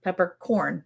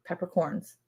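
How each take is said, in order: First: "Peppercorn" with no final s; singular form. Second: "Peppercorns" with an s on the end, softer; plural form. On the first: Answering whether it's plural, singular "Peppercorn". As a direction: end "Peppercorn" cleanly on the n. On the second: Second answer to the question, plural "Peppercorns". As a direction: add a z sound to close "Peppercorns". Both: Real, not acted. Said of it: "You just said it two different ways".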